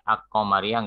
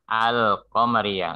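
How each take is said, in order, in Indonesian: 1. L diganti dengan k ganda. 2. L diucapkan dengan jelas sebelum k. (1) "Nggak ada Ak-Komariah" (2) "Kalau ada tanda sukunnya, namanya Komariah"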